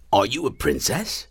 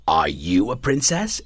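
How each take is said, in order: First: "you" picked out in the question; stress on YOU. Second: Slow hopeful question, rising on "princess"; hopeful dragon. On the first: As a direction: lean on "you", turning the question to someone new. Dragon now asks someone else. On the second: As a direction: ask eagerly, lifting the end of "princess". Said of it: "it asked hopefully". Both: A narrator's reading.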